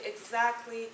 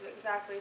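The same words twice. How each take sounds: First: The word is said with strong emphasis. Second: The word is said plainly, without emphasis.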